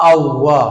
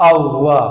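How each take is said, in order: The two takes are said the same way.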